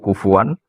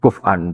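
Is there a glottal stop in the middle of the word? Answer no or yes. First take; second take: no; yes. First: The middle has a w sound without a glottal stop. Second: The middle has a glottal stop instead of w. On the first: This is how we read it. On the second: Other scholars read it this way.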